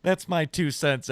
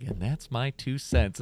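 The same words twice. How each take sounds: First: Said in the usual way. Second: Slow show-closer announcement; announcer voice. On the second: Shown as a demonstration. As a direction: drawl it like a sign-off. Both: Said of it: "I would need, like, a butt".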